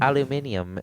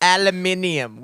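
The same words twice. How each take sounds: First: Aluminium with an English lilt; English accent. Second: Aluminium slowly with the extra i syllable; British pronunciation. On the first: Imitating the English cousin saying aluminium. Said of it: "And he'd be like". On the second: Mocking the British way of saying aluminium, slowly. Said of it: "Where is that I". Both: Retold or imitated.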